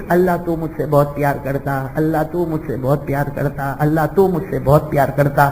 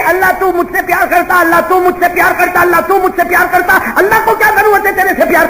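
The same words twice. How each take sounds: First: Soft, low, tearful plea to God, a touch of weeping; tearful prayer. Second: Mocking quote. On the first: Retold or imitated. Slave girl praying at night, softly tearful. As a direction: pray quietly as if through tears. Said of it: "وہ مصلی پہ رو رہی ہے". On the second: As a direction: throw her words back at her. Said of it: "وہ تو تو کہہ رہی ہے".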